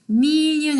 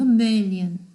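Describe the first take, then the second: First: The first vowel is a long, tense ee. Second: The first vowel is a short, lax i. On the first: The speaker calls it wrong. "million 아니고" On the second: The speaker calls it right. "어두운 이 발음의 단음"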